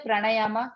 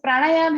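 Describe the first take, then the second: First: The word ends with an added a vowel. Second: The word ends on the consonant m. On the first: The speaker calls it wrong. "लास्ट में ए लिखा है, इसलिए आप उसको ना ए pronounce करने लगते हो" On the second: The speaker calls it right. "जैसे प्राणायाम है"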